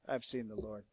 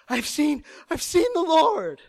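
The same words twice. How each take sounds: First: It is said in a flat monotone. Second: It is said breathlessly, gasping with excitement. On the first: The news is reported without feeling. The speaker calls it wrong. "don't ever read this in the monotone voice" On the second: The news is overwhelming and urgent. The speaker calls it right. "she's gasping for breath"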